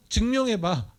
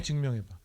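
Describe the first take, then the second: First: High, sneering prove it; mocking dare. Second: Quiet taunt. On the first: The world mocking believers, a high sneering dare. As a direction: dare them with a high jeer. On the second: Retold or imitated. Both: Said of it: "세상의 조롱이에요".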